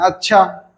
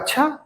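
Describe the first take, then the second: First: It is said unwillingly. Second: It is said with surprise.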